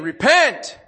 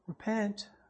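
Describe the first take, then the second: First: The word is cried out loudly and forcefully. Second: The word is said quietly and casually. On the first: It is an urgent, forceful call to change. The speaker calls it right. "He's lifting up his voice saying" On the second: It is a mild, casual suggestion. The speaker calls it wrong. "Not repent"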